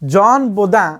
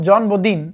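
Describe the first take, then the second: First: The surname ends in a nasal vowel, French style. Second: The surname ends in a clear 'in', English style. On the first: "ଫରାସୀ ଦାର୍ଶନିକ" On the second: "ଇଂଲିଶରେ ତାକୁ ଉଚ୍ଚାରଣ ହେବ"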